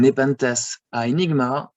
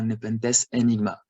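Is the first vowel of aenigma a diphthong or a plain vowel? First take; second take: diphthong; plain vowel. First: The first vowel glides as a diphthong. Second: The first vowel is a plain E. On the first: "A and E, that's a diphthong" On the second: "we could consider it as a monophthong, like E"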